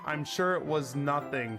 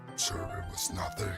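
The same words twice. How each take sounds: First: It is said in a normal voice. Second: It is said in a deep voice.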